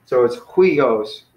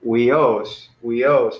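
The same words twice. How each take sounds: First: Huios slow, with the accent on the final -os; careful teaching huios, stressing the -os; stress on the end. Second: Huios with the accent on the first syllable; wrong stress. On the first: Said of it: "put the accent over this guy". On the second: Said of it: "if it was the other way". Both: Shown as a demonstration.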